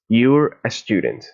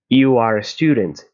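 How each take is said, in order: First: You are is joined into one short word. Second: You are is said as two full words.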